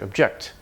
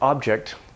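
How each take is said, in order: First: The stress is on the second syllable. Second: The stress is on the first syllable. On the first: It is used as a verb. "verbs have a stress like object" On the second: It is used as a noun. "nouns have stress like object"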